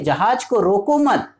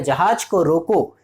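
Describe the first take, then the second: First: रोको मत run together as one higher-pitched phrase; pause after मत. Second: जहाज को रोको as a complete command, ending on रोको; stop after रोको. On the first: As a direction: join मत onto रोको, then stop after मत. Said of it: "मत के बाद कॉमा का यूज़ किया गया है". ("रोको मत" एक साथ, ऊँचे सुर में, फिर विराम) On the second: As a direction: close the phrase on रोको, slowly. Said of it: "पहले सेंटेंस में क्या बोल रहा है". ("रोको" पर वाक्य रोकें, धीमे) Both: Shown as a demonstration.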